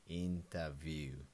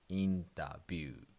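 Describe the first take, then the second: First: The 'view' part begins with a V sound. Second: The 'view' part begins with a B sound. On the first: "in English there's a V sound" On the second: "in Japanese, we pronounce B sound"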